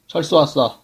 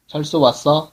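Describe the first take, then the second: First: It is said as a plain statement. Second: It is said as a question.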